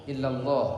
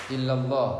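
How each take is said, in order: Both takes have the same delivery.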